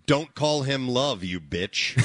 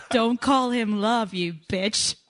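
First: Slow, plain American delivery; a quick try at an American twang; American accent. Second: Slow, drawn-out American accent attempt. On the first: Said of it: "Don't, yeah". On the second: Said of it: "That's close". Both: Shown as a demonstration.

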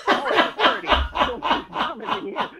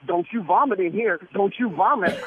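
First: High, slow, laughing retake of the line; mock girl's warning. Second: Said in the usual way. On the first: Teller redoes the store girl's warning, high and laughing. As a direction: drag it out high while cracking up. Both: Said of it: "there's a girl there going".

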